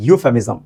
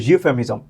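First: Said in the usual way. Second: ইউফেমিজম begun with a soft buzzed "zh"; soft z-like onset. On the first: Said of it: "এটাও কিন্তু ইউফেমিজম এই রকমের". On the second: Shown as a demonstration. Teacher demonstrates the last examples, ইউফেমিজম with z-like onset. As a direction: put a z-glide before the u of ইউফেমিজম. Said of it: "জের মতো করে উচ্চারণ শুরু".

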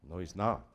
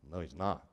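No difference in how they are said.

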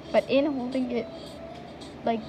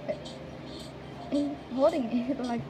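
The two takes are said the same way.

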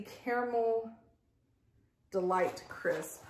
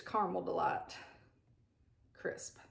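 First: CARAMEL said carefully in full, unlike the local way; standard pronunciation. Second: CARAMEL said the homely local way, as "CAR-mel"; local pronunciation. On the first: Vlogger reads out the product's name, careful standard pronunciation. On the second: Vlogger renames it as we say here, local pronunciation. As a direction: say "Caramel" casually as two-syllable "carmel". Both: Shown as a demonstration. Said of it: "Or as we say here".

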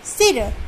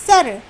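First: सिर said as sir; सि in सिर clearly; with short i. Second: सर said as sar; सर, plain sa; without the i sound. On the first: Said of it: "सा पे छोटी की मात्रा सी". (सिर छोटी ई के साथ) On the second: (सर बिना मात्रा के) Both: Shown as a demonstration.

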